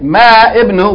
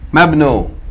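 First: The i vowel of ibnu is pronounced separately. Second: The i vowel is dropped and the words join. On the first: The speaker calls it wrong. "instead of saying ma ibnu" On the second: The speaker calls it right. "we're going to say what? Mabnu"

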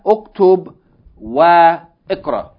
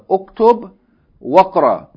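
First: Ikra starts fresh with its own vowel sound. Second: Wa runs straight into the k sound. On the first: The speaker calls it wrong. "Not Uktub Wa Ikra" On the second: The speaker calls it right.

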